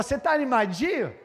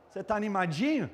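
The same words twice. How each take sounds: First: Raised, louder teasing question; imitating a friend. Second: Said in the usual way. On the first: Football friend checks on him, imitated in a loud, raised voice. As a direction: call it out as the football friend would. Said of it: "Tinha um amigo meu, irmão, que falava".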